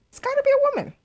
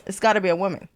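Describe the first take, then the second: First: Very high, loud squeal; high-pitched insistence. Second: Said in the usual way. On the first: Real, not acted. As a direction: insist on it, voice shooting way up. Repeats guess in squeaky high voice.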